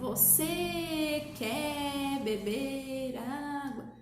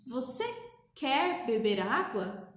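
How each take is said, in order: First: Every word is drawn out very slowly. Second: Normal-speed words are separated by short pauses. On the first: The speaker calls it wrong. "Pausadamente não é lentamente. Então eu não preciso falar assim" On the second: The speaker calls it right. "eu falo pausadamente"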